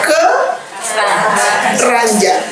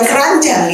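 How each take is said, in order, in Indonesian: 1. Diucapkan dengan jeda singkat di dalamnya. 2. Diucapkan menyambung, tanpa jeda. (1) "Ada ada jedanya" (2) "Bukan keranjang ya"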